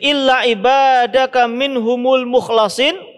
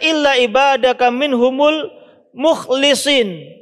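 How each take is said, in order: First: The last word has an 'a' vowel: mukhlasin. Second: The last word has an 'i' vowel: mukhlisin. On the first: Those whom God has purified and chosen. "membaca mukhlasin" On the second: Those who themselves devote worship sincerely to God. "dibaca illa ibadaka minhumul mukhlisin"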